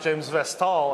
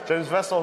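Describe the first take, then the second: First: The name is said with a French accent. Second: The name is said with an English accent.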